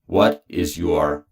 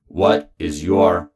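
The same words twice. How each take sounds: The two takes are said the same way.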